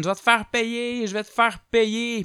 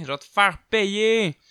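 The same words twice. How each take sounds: First: High, mock yelled threat; hammed-up furious threat; threatening shout. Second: High, slow cackling witch voice; sorcière menaçante, voix lente et aiguë; witch's threat. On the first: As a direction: yell the threat. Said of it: "il crie". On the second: Retold or imitated. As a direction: croak it like an old witch. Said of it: "elle criait".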